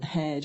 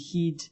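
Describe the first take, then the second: First: It has the short standard 'eh' vowel. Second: It has a local Annan dialect 'ee' vowel.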